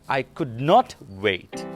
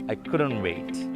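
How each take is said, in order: First: It is said slowly, each word separate. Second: It is said fast, words run together.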